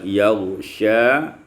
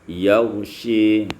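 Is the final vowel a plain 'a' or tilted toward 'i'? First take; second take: plain; tilted. First: The final vowel is a plain open 'a'. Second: The final vowel is tilted toward 'i'.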